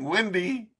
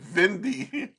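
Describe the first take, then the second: First: The word begins with a W sound. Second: The word begins with a V sound. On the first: "Instead of saying windy" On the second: "he said Vindy"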